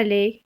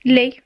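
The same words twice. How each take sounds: First: "les" with the wrong vowel, as a counterexample; teacher's contrasting wrong take of "les"; rejected pronunciation. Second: "Les" said as the correct model vowel; teacher's correct take of "Les"; model pronunciation. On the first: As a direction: show how "les" should not sound. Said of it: "Et pas les". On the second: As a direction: demonstrate "Les" firmly and clearly. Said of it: "Et pas les, les". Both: Shown as a demonstration.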